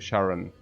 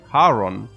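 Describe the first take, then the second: First: The name begins with an SH sound. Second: The name begins with an H sound. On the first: "In English, it seems that they change it to Sharon" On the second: "the C H is uh, is pronounced as H, like Haron"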